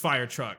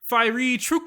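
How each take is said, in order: First: It is said plainly in ordinary English. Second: It is said with an exotic, foreign-sounding twist. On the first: The speaker calls it right. "nah, it's just fire truck" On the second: The speaker calls it wrong. "How can I pronounce that wrong?"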